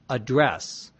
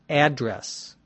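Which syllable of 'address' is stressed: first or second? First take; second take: second; first. First: The stress is on the second syllable. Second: The stress is on the first syllable. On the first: It is used as a verb. "If it's a verb, it's address" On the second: It is used as a noun. "If it's a noun, it's address"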